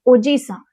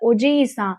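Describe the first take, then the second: First: The vowel after the 'j' is short. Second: The vowel after the 'j' is long. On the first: It means uncle. "तो ये अंकल हो जाएगा" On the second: It means grandfather. "तो उनमें डबल आई है"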